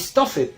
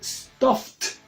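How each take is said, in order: First: The ending is an extra 'id' syllable. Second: The ending is a short 't' sound. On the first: The speaker calls it wrong. "pero no se dice stuffed" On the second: The speaker calls it right. "se dice stuffed"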